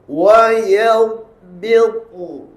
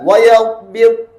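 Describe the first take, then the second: First: The final consonant is clearly sounded at the end. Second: The final consonant is dropped at the end. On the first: The speaker calls it right. "di ujung ni mesti bunyi N dua" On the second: The speaker calls it wrong. "Kalau tidak, wa yabit. Habis"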